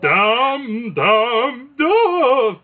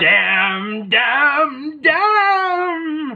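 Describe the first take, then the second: First: Rising, louder theatrical cries; Shakespearean actor. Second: Rising wail, louder each time; grand tragic wailing. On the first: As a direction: declaim it like a stage tragedian. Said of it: "like a Shakespearean actor". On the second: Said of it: "the ghost of Esther Roll". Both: Retold or imitated.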